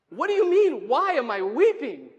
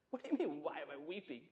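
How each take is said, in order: First: Loud indignant disbelief. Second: Hushed, quick, incredulous retort; quiet disbelief. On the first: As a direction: throw the question back forcefully in protest. Acted protest, building after quiet take. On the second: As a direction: answer under your breath, as if baffled by the question. Acted baffled reply to the angels. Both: Acted.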